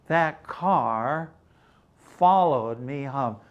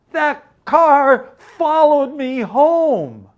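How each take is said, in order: First: Said in the usual way. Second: High, loud, slow frightened wail; panicked cry. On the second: Acted. Scared wife crying the car followed her home. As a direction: plead as if chased home. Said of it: "she cried".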